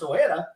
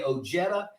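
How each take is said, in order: First: The J sounds like an H. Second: The J sounds like an English J. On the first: The original Mexican way of saying the name. "your name's really pronounced Ojeda" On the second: The family's own anglicized way of saying the name. "we're going to say Ojeda"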